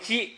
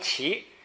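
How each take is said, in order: First: The syllable starts with a j sound. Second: The syllable starts with a q sound. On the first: It means stopping or staying. "在这儿呢读稽" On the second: It means bowing in respect. "那个在起手那读起"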